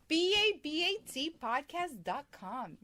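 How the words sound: It sounds bold and confident.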